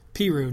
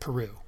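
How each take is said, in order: First: It uses the town residents' own pronunciation. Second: It uses a pronunciation the residents reject. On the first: This is how the townspeople say the name. The speaker calls it right. "The residents of this town pronounce it Peru" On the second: This is not how the townspeople say the name. The speaker calls it wrong. "not Peru"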